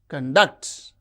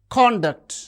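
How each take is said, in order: First: The stress is on the second syllable. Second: The stress is on the first syllable. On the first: It is used as a verb. "when they function as verbs, the stress is on the second syllable" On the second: It is used as a noun or adjective. "the stress is on the first syllable"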